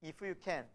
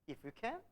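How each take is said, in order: First: "if you can" said softly, falling, unsure; doubtful if you can. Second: "If you can?" lifted high at the end in disbelief; incredulous if you can. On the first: Father doubtfully asking Jesus for help, soft and falling. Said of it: "영어 성경에 보면 이렇게 나와 있어요". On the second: Jesus echoing the father's words, rising in disbelief. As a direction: throw "If you can?" back as a rising question. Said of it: "예수님이 다시 물어요". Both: Shown as a demonstration.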